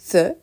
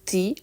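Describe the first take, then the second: First: The vowel is a short, weak 'uh' sound. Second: The vowel is a long 'ee' sound. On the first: The next word starts with a consonant. "se prononce the s'il est suivi par une consonne" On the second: The next word starts with a vowel. "il se prononce the s'il est suivi par une voyelle"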